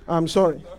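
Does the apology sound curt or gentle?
curt. The apology is quick, flat and dismissive. The speaker does not mean the apology. The speaker calls it wrong. "Somebody who is not saying from the heart will just go"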